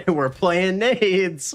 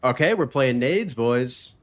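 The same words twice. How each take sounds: First: Laughing. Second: Said in the usual way. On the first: Real, not acted. Repeats line laughing.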